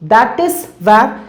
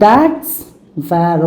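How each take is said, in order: First: That and is are said as two separate words. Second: That and is are joined into one short syllable.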